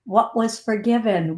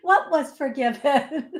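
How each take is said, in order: First: Said in the usual way. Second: Higher, repeating it through laughter; laughing requote. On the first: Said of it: "do you know what my, my blonde butt said to him?". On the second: Retold or imitated. Requoting herself to viewers, laughing. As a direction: say it again while giggling.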